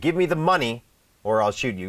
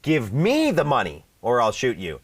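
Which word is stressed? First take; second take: money; me. First: The word money is stressed. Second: The word me is stressed. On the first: Money is wanted, not something else. "ก็คือให้เงินไม่ให้ทอง" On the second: It must be given to the speaker, not anyone else. "คือให้ฉันอย่าไปให้ใคร / ถูกต้องนะฮะเน้นว่าไม่ใช่คนอื่น"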